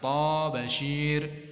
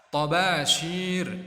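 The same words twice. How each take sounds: First: The first vowel is drawn out long. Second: The first vowel is kept short. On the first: The speaker calls it wrong. "Atau toknya dibaca panjang" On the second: The speaker calls it right. "yang benar tobashir"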